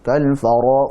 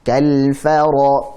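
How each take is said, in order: First: The f sound is slack and careless. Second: The f sound has a moderate, normal amount of air. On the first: The speaker calls it wrong. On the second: The speaker calls it right. "Jadi fa biasa"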